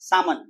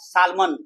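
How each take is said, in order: First: The l sound is left silent. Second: The l sound is pronounced. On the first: The speaker calls it right. "એલ silent છે" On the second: The speaker calls it wrong. "Not સાલમન"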